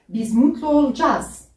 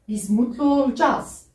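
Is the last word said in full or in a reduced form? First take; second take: reduced; reduced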